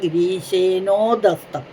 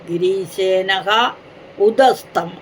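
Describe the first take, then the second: First: One joined word, the h replaced by o. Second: Two words, the first ending in a breathy h. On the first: "അത് ഓകാരമായിട്ട് മാറി" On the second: "ആ വിസർഗം ഉണ്ടായിരുന്നു"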